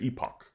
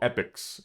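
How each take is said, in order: First: It is said the British way, ending in ock. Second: It is said the American way, like epic.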